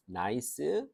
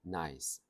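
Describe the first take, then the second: First: Nice as na-i-seu, rising; Korean-style three syllables. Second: Nice in one low, falling beat; one syllable. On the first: Teacher showing a wrong syllable count, Korean style. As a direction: say nice with an added seu vowel. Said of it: "삼음절 아니에요". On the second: Teacher correcting the count, single English syllable. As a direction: say nice ending on a bare s. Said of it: "하나로 치는 거야". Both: Shown as a demonstration.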